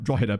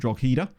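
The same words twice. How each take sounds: First: The name is said the local, non-spelled way. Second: The name is read as spelled, English-style. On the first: The speaker calls it right. "But I know that it's like Drogheda" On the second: The speaker calls it wrong. "if I was pronouncing it phonetically with an English accent"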